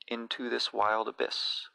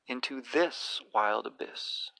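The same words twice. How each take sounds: First: It is read plainly, in a regular iambic rhythm. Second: It is read slowly, with a sense of awe.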